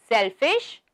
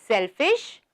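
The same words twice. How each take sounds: The two takes are said the same way.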